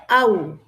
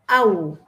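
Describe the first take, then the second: Both takes have the same delivery.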